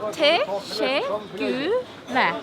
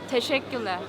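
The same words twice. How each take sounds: First: It is said slowly. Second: It is said fast.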